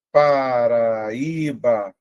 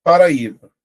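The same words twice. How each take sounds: First: PARAÍBA stretched very slowly, A and Í held as separate vowels; slow teacher's sounding-out of "Paraíba", every vowel lengthened; drawn-out syllables. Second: Said in the usual way. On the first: Shown as a demonstration. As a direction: draw out "Paraíba" syllable by syllable, lingering on the stressed Í. Teacher stretches word to show hiatus.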